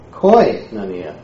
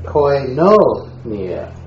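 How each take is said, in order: First: Koinonia with the first syllable, KOI, punched; slow Koinonia, stressed right at the start. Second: Koinonia with a long, heavy NO in the middle; very slow koinonia, stressed on its second syllable. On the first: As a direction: hit the opening KOI of Koinonia, then fall away. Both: Shown as a demonstration. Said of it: "each time stressing a different syllable".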